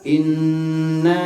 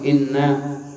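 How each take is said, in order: First: The n sound is held before the vowel. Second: The n sound is short and not held. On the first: The speaker calls it right. "segitu tuh nahannya" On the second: The speaker calls it wrong. "nggak langsung inna, salah tuh"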